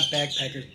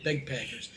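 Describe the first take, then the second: First: Said in the usual way. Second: "bagpackers" with BEG as first syllable, lower and softer; pronounced begpackers. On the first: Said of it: "not backpackers, bagpackers". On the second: Shown as a demonstration. Explaining the nickname to viewers, "bagpackers" said as beg-packers. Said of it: "not backpackers".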